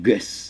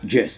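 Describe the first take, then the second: First: It begins with a hard G sound. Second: It begins with a J sound. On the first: The speaker calls it wrong. "I say it's not guess" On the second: The speaker calls it right. "So Jess is settled as Jess"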